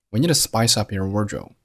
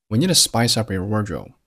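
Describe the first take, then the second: No difference in how they are said.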